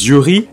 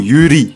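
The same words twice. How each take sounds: First: The word is said with French sounds. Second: The word is said with Japanese sounds. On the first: This form is easy for everyone to recognize. "pour être sûr que le nom soit accessible à tous" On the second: This is the original pronunciation. "qui est censé être sa prononciation initiale"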